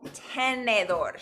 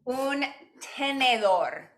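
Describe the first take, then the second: First: Tenedor said slowly, stress on the last syllable; "Tenedor" drawn out for the class to repeat; slow Spanish word. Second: Slow, careful un tenedor, tapped r; slow Spanish word. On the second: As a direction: say "Un tenedor" slowly, each syllable clear. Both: Shown as a demonstration. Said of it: "se dice, para fork".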